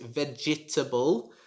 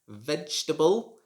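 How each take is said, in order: First: The second E vowel is clearly pronounced. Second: The second E vowel is silent. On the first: The speaker calls it wrong. "you should not pronounce it vegetable" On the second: The speaker calls it right. "The second E is silent"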